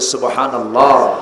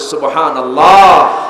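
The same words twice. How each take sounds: First: It is said somewhat loudly. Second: It is said even more loudly.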